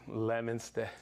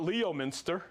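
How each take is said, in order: First: "Leominster" said as LEM-in-ster, three syllables; local pronunciation. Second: "Leominster" said as LEE-oh-min-ster, spelling-style; outsider mispronunciation. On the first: Host teaching viewers to say "Leominster" as LEM-in-ster. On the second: Host mocking flatlanders who say "Leominster" as LEE-oh-min-ster. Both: Shown as a demonstration. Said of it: "That's how you pronounce it".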